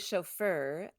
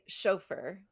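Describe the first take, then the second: First: It is said the American way, more French-sounding. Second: It is said the British way, less French-sounding. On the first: "We say chauffeur" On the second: "the British prefer a, uh, a pronunciation that is kind of not French"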